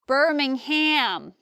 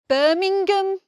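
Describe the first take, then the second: First: It is said with an American accent. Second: It is said with a Birmingham local accent. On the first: "many Americans say Birmingham" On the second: "someone actually from there would say something like Birmingham"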